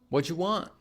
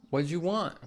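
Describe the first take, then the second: First: What do you is squeezed into whatcha. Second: The same.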